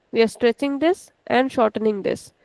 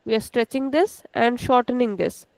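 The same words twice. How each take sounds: The two takes are said the same way.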